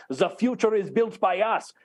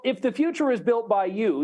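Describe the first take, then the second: First: Mock Schwab accent, devoiced consonants; imitating Schwab's accent. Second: Said in the usual way. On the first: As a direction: quote it in a put-on German-style Schwab accent. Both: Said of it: "In May, he said".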